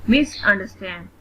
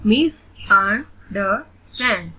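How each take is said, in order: First: Said in the usual way. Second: "मिसअंडरस्टैंड" slowly in four pieces; split into syllables. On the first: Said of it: "read the word". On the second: Shown as a demonstration. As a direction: leave gaps between the syllables of "मिसअंडरस्टैंड". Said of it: "split in the syllables". ("मिसअंडरस्टैंड" को धीरे, चार हिस्सों में)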